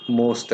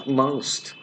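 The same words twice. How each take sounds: First: Said in the usual way. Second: "most" with an ow glide, like "moust"; exact pronunciation. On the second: Shown as a demonstration. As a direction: make "most" rhyme with "oust". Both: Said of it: "pronounce most as most".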